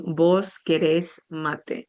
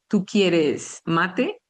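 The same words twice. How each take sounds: First: "¿Vos querés mate?" said slowly, each word spaced, with the stress on the last syllable of "querés"; slow voseo demo. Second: "¿Tú quieres mate?" said slowly and evenly, each word spaced; slow demo. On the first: Teacher modelling the Uruguayan vos form, slow and clear. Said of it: "vas a decir". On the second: Teacher showing students the tú form, slow and clear. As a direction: spell out "¿Tú quieres mate?" slowly for Spanish learners. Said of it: "en vez de decir". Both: Shown as a demonstration.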